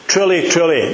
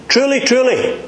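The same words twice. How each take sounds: First: Both words "Truly, truly" said evenly, falling, no lift; steady, calm "Truly, truly" as a plain statement; emphatic truly. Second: "Truly, truly" lifted high with a strong falling stress on each word; emphatic truly. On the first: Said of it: "The emphasis on these words is this". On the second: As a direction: ring out "Truly, truly" high, then let it fall. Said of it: "here we go again". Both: Shown as a demonstration.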